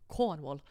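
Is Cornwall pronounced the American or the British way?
British. Cornwall is pronounced in a British way. The speaker calls it right. "and it's Cornwall"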